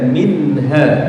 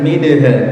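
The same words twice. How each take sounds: First: The n sound before h is clear. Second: The n sound before h is blurred. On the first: The speaker calls it right. "Nun sukunnya dibaca jelas ya" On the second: The speaker calls it wrong. "jangan minha"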